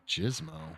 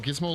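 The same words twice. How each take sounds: First: It begins with a soft G sound. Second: It begins with a hard G sound. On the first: The speaker calls it wrong. "I put the wrong pronunciation for the G" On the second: The speaker calls it right. "like the ground"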